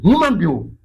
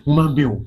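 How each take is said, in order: First: "human being" said higher and louder, hitting "human"; emphatic repeat. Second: Said in the usual way. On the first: Shown as a demonstration. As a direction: stress "human" hard the second time.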